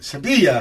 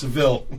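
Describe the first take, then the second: First: The name is said with a local Spanish pronunciation. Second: The name is said with an English pronunciation.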